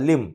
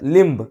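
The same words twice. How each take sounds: First: The word ends with m, no b. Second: The word ends with a b sound. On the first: The speaker calls it right. "बीचा उच्चार नाही करत" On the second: The speaker calls it wrong. "लिंब असं नाही म्हणत"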